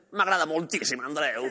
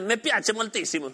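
First: Italian accent on Catalan. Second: Slow Italian phrase; Italian accent. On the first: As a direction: Catalan words, Italian lilt. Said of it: "la lengua catalana con el acento italiano". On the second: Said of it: "en italiano es". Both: Shown as a demonstration.

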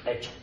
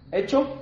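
First: HECHO answered short, low and final; agreeing. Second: HECHO asked high with a rising end; questioning. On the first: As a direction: say HECHO as a settled reply, no lift. Friend answers, agreeing to deal. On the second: Two friends sealing a deal. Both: Acted.

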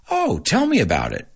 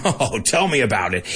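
First: Curious. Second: Sarcastic. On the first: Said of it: "I wanna know more". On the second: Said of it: "with a sarcastic tone". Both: Shown as a demonstration.

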